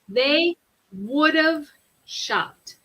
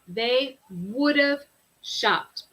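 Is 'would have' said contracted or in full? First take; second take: contracted; contracted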